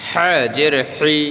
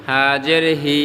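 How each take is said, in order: First: 'হ্যাঁ' and 'হি' squeezed in the throat; pressed throat H. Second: Said in the usual way. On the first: Shown as a demonstration. Teacher contrasts two H letters, 'হি' pressed. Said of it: "pressure দিয়ে বলতে হবে". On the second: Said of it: "normal".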